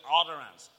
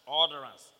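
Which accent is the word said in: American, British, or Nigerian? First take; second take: American; American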